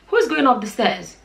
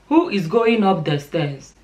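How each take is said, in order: First: The words are run together with a contraction. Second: Each word is said separately and fully.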